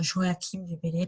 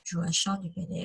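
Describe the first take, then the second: First: "Joachim" said with a K sound, jo-a-KIM; alternative modern pronunciation. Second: Said in the usual way. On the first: Shown as a demonstration. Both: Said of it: "on peut dire Joachim du Bellay".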